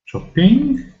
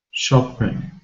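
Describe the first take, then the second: First: Shopping? with a big questioning rise; wondering if Shopping has a suffix. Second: Said in the usual way. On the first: Shown as a demonstration. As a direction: ask Shopping? with a high rising tune. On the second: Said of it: "What about shopping?".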